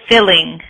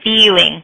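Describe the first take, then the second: First: The first vowel is short, like in 'fill'. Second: The first vowel is long, like in 'feel'. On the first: The speaker calls it right. "it's only the I here, it's a very short sound" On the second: The speaker calls it wrong. "What I hear you saying is feeling"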